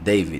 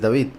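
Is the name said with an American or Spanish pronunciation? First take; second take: American; Spanish. First: The name is said with an American English A. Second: The name is said with Spanish vowels. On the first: "en Estados Unidos ... por la pronunciación que le dan a la A, pronuncian David" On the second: "en español es David y en todo lado es David"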